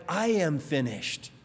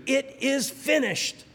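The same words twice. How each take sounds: First: A beaten man conceding, defeated; words of defeat. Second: Triumphant, slow and much higher; Jesus on the cross proclaiming victory, triumphant; cry of victory. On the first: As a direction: let it sink like giving up. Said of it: "three words of defeat". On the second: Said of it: "It was a cry of victory". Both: Retold or imitated.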